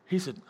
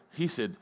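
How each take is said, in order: Both takes have the same delivery.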